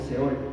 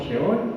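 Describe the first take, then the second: First: The word begins with an s sound. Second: The word begins with a sh sound. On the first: "se puede también, ¿verdad?, leer como Seol" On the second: "se pronuncia como Sheol"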